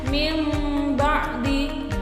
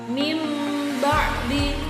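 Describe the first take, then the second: The two takes are said the same way.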